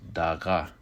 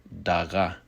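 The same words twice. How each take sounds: First: The word begins with a D sound. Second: The word begins with a D sound.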